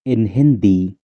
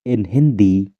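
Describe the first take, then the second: No difference in how they are said.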